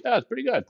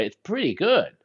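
First: High, upbeat yeah; cheerful high pretty good; bright approval. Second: Higher, pleasantly surprised pretty good; surprised approval. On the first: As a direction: say it like real praise. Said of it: "that's how I kinda". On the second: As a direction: sound surprised it's good. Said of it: "you didn't think it was gonna be as good". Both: Shown as a demonstration.

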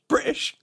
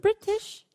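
First: "British" said as "Bri'ish" with a glottal stop; "British" without the T sound, British accent; dropped T. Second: "British" said with a clear T, Canadian way; "British" pronounced with a crisp T sound. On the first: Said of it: "everybody always drops the T". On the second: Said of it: "it sounds ridiculous if I say it". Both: Shown as a demonstration.

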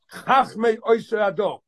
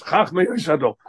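First: Chachmei drawn out slowly and weighted, each word set apart; emphasis on Chachmei. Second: Said in the usual way. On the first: Shown as a demonstration. Stressing Chachmei for students, slow and weighty. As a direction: lean hard on Chachmei, slow and deliberate. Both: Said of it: "It's a very important emphasis".

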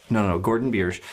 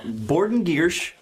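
First: Said in the usual way. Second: Borden Giersch said slowly with B and G swapped on purpose; deliberate flub, slow. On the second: Shown as a demonstration. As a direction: repeat the spoonerism Borden Giersch slowly as a joke.

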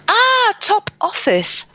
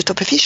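First: High, drawn-out English "Top Office" of sudden recognition; English accent. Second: Put-on French accent. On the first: Retold or imitated. Teacher finally recognising the shop name, English-accented exclamation. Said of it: "Parce que ce sont des mots anglais". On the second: Quoting a French person naming the shop, French accent. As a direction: Top Office said evenly the French way. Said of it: "française, euh, le magasin".

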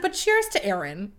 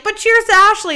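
First: Understated counter-toast, in contrast to cheering; modest redirect. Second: High, loud group-toast imitation; cheering toast. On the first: Retold or imitated. Maid of honor passing the toast to the bride, understated. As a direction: deflect the toast to someone else. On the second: Girls toasting the maid of honor, loud mock cheer. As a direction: cheer it out like a crowd raising glasses.

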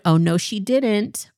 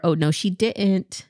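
First: Sassy, slightly higher take; first version, a bit higher and sassier. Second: Second version, settled and lower; lower sassy. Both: Shown as a demonstration. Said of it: "say it the second way".

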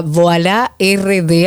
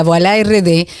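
First: "Voilà R D" said slowly, each part clear; spelled out slowly. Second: Said in the usual way. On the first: Shown as a demonstration. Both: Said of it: "así mismo como se pronuncia".

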